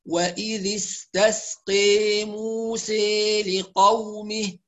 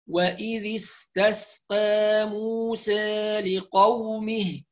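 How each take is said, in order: First: The long a vowels lean strongly toward i. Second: The long a vowels lean slightly toward i. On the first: "الذي يقرأ بالإمالة يضبط الإمالة" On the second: "الذي يقرأ بالتقليل"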